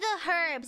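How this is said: Herbs is said the European way.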